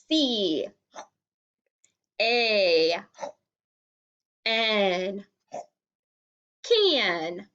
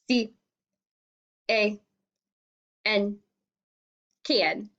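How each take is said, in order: First: It is said in a silly hungry creature voice. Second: It is said in a flat, mechanical robot voice. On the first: "let's do hungry thing" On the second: "Let's do a robot voice"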